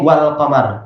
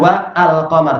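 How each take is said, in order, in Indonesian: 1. 'Wa' langsung tersambung ke 'l' tanpa henti. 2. Hamzah memisahkan 'wa' dari 'al'. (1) "tapi wal qamar" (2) "bukan wa al-qamar"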